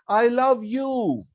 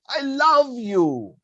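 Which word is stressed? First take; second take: you; love. First: The stress is on "you". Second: The stress is on "love".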